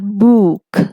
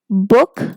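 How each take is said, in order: First: The vowel sound is long. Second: The vowel sound is short. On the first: The speaker calls it wrong. "not book" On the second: The speaker calls it right. "with a short oo"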